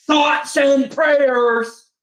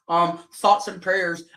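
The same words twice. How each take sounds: First: "thoughts and prayers" drawn out very slowly and pitched high; mocking, sing-song condolence, much higher and very slow; sarcastic thoughts and prayers. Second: Slow, hollow "thoughts and prayers"; dismissive, slowed-down fake condolence; mock sympathy. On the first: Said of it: "I'ma do the exact same shit to you". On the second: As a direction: brush them off with a flat, slow "thoughts and prayers". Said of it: "the same bullshit that you give to us".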